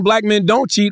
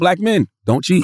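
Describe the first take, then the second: First: It is said without a pause after men. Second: There is a pause after men, like a command.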